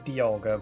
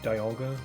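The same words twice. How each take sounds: First: The first syllable sounds like 'dee', as in demon. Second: The first syllable sounds like 'die', as in diamond. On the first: Other people say it this way. The speaker calls it wrong. "I've heard some people say Dialga" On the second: This is the form the speaker uses. The speaker calls it right. "You say diamond, so it just makes sense that it'd be pronounced Dialga"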